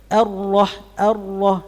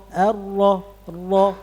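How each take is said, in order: No difference in how they are said.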